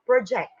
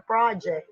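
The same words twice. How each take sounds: First: "project" as pro-JECT, the verb; stress on second syllable. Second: "project" as PRAH-ject, like schoolwork; stress on first syllable. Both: Shown as a demonstration. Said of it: "It's different from project".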